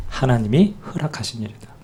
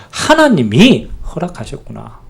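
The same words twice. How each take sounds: First: Said in the usual way. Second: 하나님이 허락하셨구나 said slowly, savoring 하나님이; slow down and land on 하나님이 as the subject; slow realization. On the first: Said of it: "주어입니다". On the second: Shown as a demonstration. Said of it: "주어입니다, 주어".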